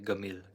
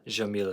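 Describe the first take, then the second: First: The word begins with a hard g sound. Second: The word begins with a soft j sound.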